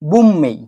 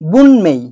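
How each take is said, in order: First: It is said with an m before 'mei'. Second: It is said with an n before 'mei'. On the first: The speaker calls it right. "যখন আমরা উচ্চারণ করব শব্দটা তখন এটা হয়ে যাবে" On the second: The speaker calls it wrong. "আমি এখানে লিখেছি বুনমেই"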